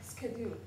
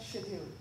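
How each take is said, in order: First: It is said with an American pronunciation. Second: It is said with an Indian pronunciation. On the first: The speaker calls it right. "A word like schedule" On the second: The speaker calls it wrong. "not schedule"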